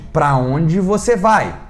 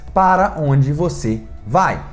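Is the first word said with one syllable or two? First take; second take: One; Two. First: The first word is shortened to one syllable. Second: The first word has two full syllables. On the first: This is casual spoken speech. "Para onde já vira pra onde" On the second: This is the careful written form. "todo certinho, todas as palavras completas"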